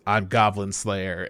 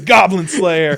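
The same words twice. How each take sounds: First: Low, soft, slow self-introduction; stoic hero. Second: Loud, higher mock-dramatic title call; title announcement. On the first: Retold or imitated. Hero answers her on the hillside, stoic and quiet. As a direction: understate it in a deep, solemn hero voice. Hero's line, then title announced. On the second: Title appears as the movie ends, mock-epic. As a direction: belt it out as the big title drop.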